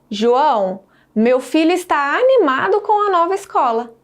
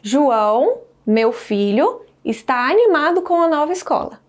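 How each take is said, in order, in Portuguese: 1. 'Meu filho' emenda direto no verbo. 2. Há uma pausa depois de 'meu filho'. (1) "Olha primeiramente a entonação" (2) "meu filho, entre vírgulas, indica um aposto do termo João"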